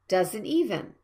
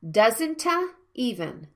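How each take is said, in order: First: The words link directly with no extra vowel. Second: An extra vowel is inserted between the words. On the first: The speaker calls it right. "I want to check it with the linking sounds" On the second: The speaker calls it wrong. "not doesn't-a even"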